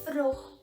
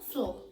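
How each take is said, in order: First: The word has an R sound after the f. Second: The word has an L sound after the f. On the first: The upper classes said it this way. "o correto era se falar fror" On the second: The poorer people said it this way. "e não flor"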